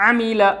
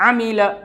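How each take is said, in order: No difference in how they are said.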